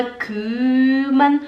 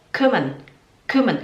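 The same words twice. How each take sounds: First: "kümmern" with a long, stretched ü; wrong long vowel. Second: "kümmern" with a short, quick ü; short vowel. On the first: Teacher shows the mistake, long-vowel "kümmern". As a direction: draw out the first vowel of "kümmern" slowly. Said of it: "Não é kümmern". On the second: Teacher models the correct word, short-vowel "kümmern". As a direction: clip the ü in "kümmern" before the double m. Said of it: "Porque tem dois M's". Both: Shown as a demonstration.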